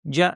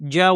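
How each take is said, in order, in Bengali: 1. স্বরটি হ্রস্ব রাখা হয়েছে। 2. স্বরটি হ্রস্ব রাখা হয়েছে।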